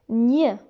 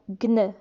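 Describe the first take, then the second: First: It is said as one nasal ny sound. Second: It is said as a hard g then n. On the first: The speaker calls it right. "G et N se prononcent gn" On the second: The speaker calls it wrong. "G et N ne se prononcent pas gn"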